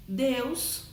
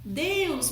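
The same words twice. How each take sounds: First: Said in the usual way. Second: "Deus" chamado alto, com queda exclamativa; "Deus" como uma invocação fervorosa; chamado exclamativo. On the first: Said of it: "são vocativos". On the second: Shown as a demonstration. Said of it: "entonação exclamativa". ("Deus" exclamado com entonação de chamado)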